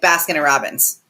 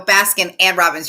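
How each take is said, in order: First: The middle word is reduced to a quick 'n'. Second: The middle word is a full, clear 'and'. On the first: "You're like ... there's an in" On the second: "you don't go"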